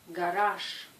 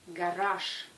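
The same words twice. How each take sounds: The two takes are said the same way.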